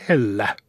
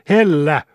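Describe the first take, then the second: First: Restrained warning, cutting in; mild warning at usual volume; warning interruption. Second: Louder, higher cut-in; forceful one-word shout to stop someone; roaring interruption. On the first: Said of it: "varotti lukkari keskeyttäen". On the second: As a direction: break in with a raised-voice roar. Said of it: "keskeytti lukkari aivan karjasemalla". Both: A narrator's reading.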